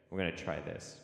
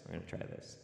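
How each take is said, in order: First: Said in the usual way. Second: Whispered. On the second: Shown as a demonstration. Repeat dropped to whisper.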